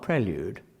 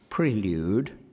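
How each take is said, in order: First: The word is said with a weak, ordinary pronunciation. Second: The word is said with a strong, full pronunciation. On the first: This form is the one that prevails in Great Britain. "not prelude" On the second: This is the pronunciation the poet used. "he says very, very clearly"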